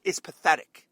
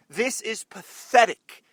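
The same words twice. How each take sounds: First: Said in the usual way. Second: Slow, loud, disgusted emphasis; emphatic, louder. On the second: Real, not acted. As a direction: lean hard on every word. Repeats line with emphasis.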